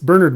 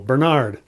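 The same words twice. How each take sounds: First: The stress is on the first syllable. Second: The stress is on the second syllable. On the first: The speaker calls it right. "It's Bernard Montgomery" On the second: The speaker calls it wrong. "much like they pronounce Bernard wrong. Again, going with the second syllable"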